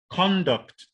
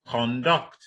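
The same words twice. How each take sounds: First: "conduct" with CON punched high, falling on -duct; stress on first syllable. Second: "conduct" with DUCT stressed, rising; stress on second syllable. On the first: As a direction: hit the CON in "conduct", high then drop. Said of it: "On the first syllable". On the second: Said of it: "the stress is on the second syllable". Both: Shown as a demonstration.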